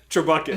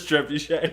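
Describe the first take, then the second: First: The word ends with a hard 'ket' sound. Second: The word ends with a soft 'shay' sound. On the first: The speaker calls it wrong. "Trebucket instead of Trebuchet" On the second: The speaker calls it right. "Trebuchet is what it is"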